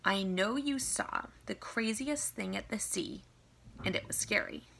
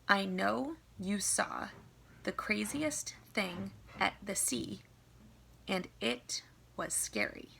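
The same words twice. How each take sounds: First: It is read at a faster, normal pace. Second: It is read at a slower pace.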